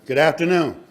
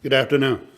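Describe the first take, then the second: First: Raised, louder hello to the room; louder repeated greeting. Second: Said in the usual way. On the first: Real, not acted. Speaker prompting the audience to greet him back, louder and higher. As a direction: call it out higher to get an answer.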